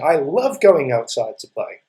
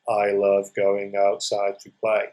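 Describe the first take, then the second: First: It is said excitedly, with strong feeling. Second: It is said flatly, like a plain statement.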